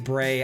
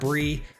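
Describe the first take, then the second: First: The vowel is an 'ay' sound. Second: The vowel is a long 'ee' sound. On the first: "I know it could be Bray" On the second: "I'm calling this card Bree"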